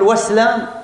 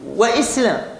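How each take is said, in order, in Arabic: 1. تُحذف الهمزة، فتتصل الكلمتان. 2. الهمزة تفصل بين الكلمتين. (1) "ينفع نقول واسلام" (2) "الهمزة التي تقطع ما قبلها عما بعدها"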